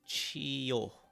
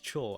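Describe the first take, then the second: First: It is said as two syllables, chi and yo. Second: It is said as one merged syllable, cho. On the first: Each symbol is read separately. The speaker calls it wrong. "I pronounced this as chiyo" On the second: The two symbols are read together as one sound. The speaker calls it right. "the writer wanted to convey this cho as opposed to chiyo"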